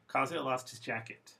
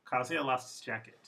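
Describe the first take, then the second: First: The small words are reduced and run together. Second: The small words are reduced and run together.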